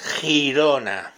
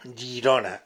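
First: It begins with a rough throaty h sound. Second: It begins with a soft y-like sound. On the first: This is how the Spanish spelling is read. The speaker calls it right. "veo la G con la I, hace G, la G con la I, niños, hace G, entonces ahí lo que pone es Girona" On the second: This is the local, non-Spanish pronunciation. The speaker calls it wrong. "Tendrías que ser Y-I-R-O-N-A. Girona"

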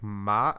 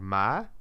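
First: The pitch stays level throughout. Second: The pitch rises through the syllable. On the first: "which is like flat" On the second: "like the tone goes up"

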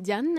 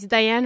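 First: The name is pronounced the French way. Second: The name is pronounced the English way.

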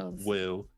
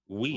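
First: The name ends with an L sound. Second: The name ends in a plain vowel sound. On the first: The speaker calls it wrong. "You say Will?" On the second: The speaker calls it right. "It's we"

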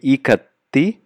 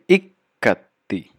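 First: The k sound is single and short. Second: The k sound is doubled and held long. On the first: The speaker calls it wrong. "it will not be ikatti" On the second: The speaker calls it right. "There's a stress on the K"

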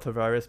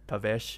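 First: The name is said with an English pronunciation. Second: The name is said with a Portuguese pronunciation. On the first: The speaker calls it wrong. "It's not Tavares" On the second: The speaker calls it right. "because it's Portuguese, so it's pronounced as Tavares"

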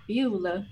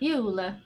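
First: It is said in a Southern American accent. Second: It is said in a plain, natural accent. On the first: "Let's see if Gilly can do a southern accent" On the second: "you kind of have to say it more naturally"

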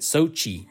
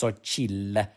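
First: The name ends without an L sound. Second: The name ends with an L sound. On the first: The speaker calls it wrong. "everyone pronounces it Sochi" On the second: The speaker calls it right. "It's Xochitl with an L at the end"

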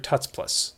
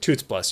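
First: The first vowel sounds like the one in 'but'. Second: The first vowel sounds like the one in 'boot'. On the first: "You're Tuts Plus" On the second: "I pronounce it Toots Plus"

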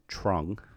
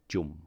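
First: The name is said as its English spelling suggests. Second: The name is said with its Vietnamese pronunciation. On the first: This is how others usually say the name. The speaker calls it wrong. "people pronounce it as Trung" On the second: This is the name's true pronunciation. The speaker calls it right. "but it's actually pronounced Jum"

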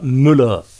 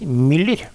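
First: The vowel is a plain u sound. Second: The vowel is a fronted y sound. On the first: This is how the name should be said. The speaker calls it right. "hun skal altså uttales med «u»" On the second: This is how Norwegians usually say the name. The speaker calls it wrong. "Alle nordmenn sier Müller"

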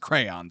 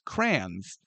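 First: The word sounds like two syllables, 'cray-on'. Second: The word sounds like one syllable, 'crans'. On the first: This is the standard way of saying it. The speaker calls it right. "It is crayon, so we're wrong" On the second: This is the local way of saying it. The speaker calls it wrong. "as we pronounced it growing up in St. Louis"

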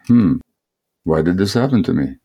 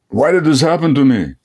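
First: It sounds gently and compassionately curious. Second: It sounds resentful and rejecting.

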